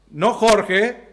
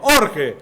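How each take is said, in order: First: 'Jorge' as the Spanish name, the one to avoid; wrong name 'Jorge'. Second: 'orge' punched higher, starting on the vowel; corrected 'orge'. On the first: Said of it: "no Jorge, Clau, por favor, orge". ('Jorge', como el nombre propio) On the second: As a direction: hit 'orge' with no opening j. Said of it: "no Jorge, Clau, por favor". ('orge' recalcado, sin jota inicial) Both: Shown as a demonstration.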